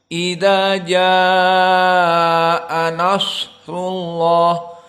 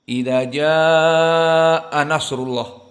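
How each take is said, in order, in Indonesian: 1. Bunyi s ditahan dengan desis yang lebih panjang. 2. Bunyi s diucapkan terburu-buru dan dipotong pendek. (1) "Yang benar" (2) "membaca dengan cepat ... Maka ini salah"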